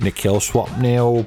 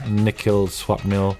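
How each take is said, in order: First: It is said in a put-on British-style voice. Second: It is said in his natural voice.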